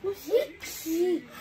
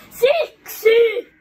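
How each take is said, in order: First: Drawn-out, exasperated "because"; slow, impatient answer; exasperated retort. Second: Loud, high yell of "because"; real fed-up shout, pitched up; exasperated shout. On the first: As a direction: stretch it out, fed up with being asked. Answering repeated "why" from sibling. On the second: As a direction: shout it to end the argument. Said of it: "Huuda tähän". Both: Real, not acted.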